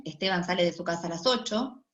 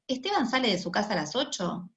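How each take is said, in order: First: "Esteban sale de su casa a las ocho" as a statement, pitch falling at the end on "ocho"; falling intonation. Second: "Esteban sale de su casa a las ocho" as a yes-no question, pitch rising at the end on "ocho"; rising intonation. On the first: Lecturer shows students a declarative statement, falling tune. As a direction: say it flat and final, dropping on "ocho". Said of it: "En A tenemos la entonación descendente".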